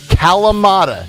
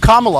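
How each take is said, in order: First: The word is said with four syllables. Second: The word is said with three syllables. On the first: The speaker calls it right. "I'm like Kalamata. Say it with me" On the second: The speaker calls it wrong. "She can't even say Kalamata olives properly"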